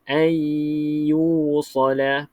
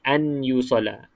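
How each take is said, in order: First: The n merges into a nasalized, lengthened y. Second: The n is said clearly before the y. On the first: The letters are read with idgham. The speaker calls it right. "Idghamkan maksudnya masuk ke dalam ya" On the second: The letters are read with izhar. The speaker calls it wrong. "jangan bunyi an yusala"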